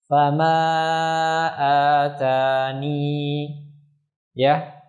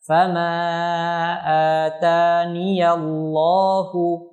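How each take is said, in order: First: The ya is kept at the stop. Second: The ya is said with an a vowel, running on. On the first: The reading stops after this word. "dibaca dengan menetapkan ya ketika waqaf" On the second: The reading continues without stopping. "dibaca dengan memfathahkannya bila wasol"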